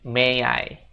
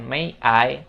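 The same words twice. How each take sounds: First: The two words run together smoothly. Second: The two words are said separately. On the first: The speaker calls it right. "tapi may I ... connecting speech, yaitu nyambungin kata" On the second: The speaker calls it wrong. "bukan may I"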